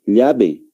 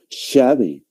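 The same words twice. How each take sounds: First: Said in the usual way. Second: "llave" starting with an Argentine "sh"; Argentine pronunciation. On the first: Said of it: "nosotros va-, vamos a pronunciar". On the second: Shown as a demonstration. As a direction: say "llave" as an Argentine would, "shave". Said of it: "Un argentino".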